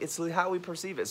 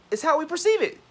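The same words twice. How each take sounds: First: Said in the usual way. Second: Very high, loud goofy voice; hammed-up high-pitched silliness; silly voice. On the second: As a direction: squeal it out stupidly. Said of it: "I'm being stupid".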